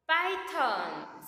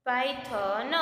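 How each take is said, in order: First: Said in the usual way. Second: પાયથન in separate syllables, final n released with a vowel; syllable-by-syllable dictation. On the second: Shown as a demonstration. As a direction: sound out પાયથન for spelling, ending on "na". Syllable-by-syllable repeat for writing.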